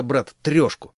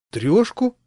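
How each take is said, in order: First: Said in the usual way. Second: High rising astonished question; mock amazement, high and rising. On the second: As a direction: sound amazed, voice jumping much higher. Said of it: "как обычно изумился он".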